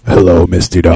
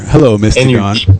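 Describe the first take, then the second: First: The greeting is said in a deliberately deep voice. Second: The greeting is said in an ordinary voice.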